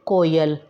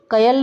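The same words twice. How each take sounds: First: कोयल with a clear long o, koyal; कोयल said slowly and correctly with the ओ vowel; correct form. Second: कयल said without the ओ sound, as kayal; deliberately mispronounced कयल, missing the o vowel; wrong form. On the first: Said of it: "ओ की मात्रा लगाएंगे तो word बनेगा". (सही उच्चारण कोयल, ओ की मात्रा के साथ) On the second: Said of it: "कयल नहीं होता है ना". (गलत उच्चारण कयल, बिना ओ की मात्रा) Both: Shown as a demonstration.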